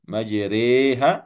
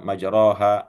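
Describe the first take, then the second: First: The vowel after r leans from a toward e. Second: The vowel after r is a plain open a. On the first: "diimalahkan ... dimiringkan bacaannya dari A menuju E" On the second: "Ada yang baca majroha"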